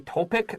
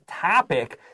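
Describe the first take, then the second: First: The first vowel is a long O sound. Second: The first vowel is a short O sound. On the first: The speaker calls it wrong. "Sometimes I hear students say topic. That's wrong" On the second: The speaker calls it right. "This is a short O"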